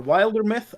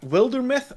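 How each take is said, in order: First: Wildermyth with a long i, as in "wild"; alternative pronunciation attempt. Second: Wildermyth with a short i, as in "wilderness"; first pronunciation attempt. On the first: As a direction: say Wildermyth starting like "wild", pitched higher. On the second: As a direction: say Wildermyth starting like "will". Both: Shown as a demonstration. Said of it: "I don't know how to pronounce it".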